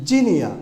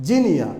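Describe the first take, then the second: No difference in how they are said.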